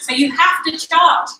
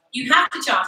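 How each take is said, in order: First: "have" leaned on, louder and higher; stress on have. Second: Said in the usual way. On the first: Shown as a demonstration. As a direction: hit the word "have" hard.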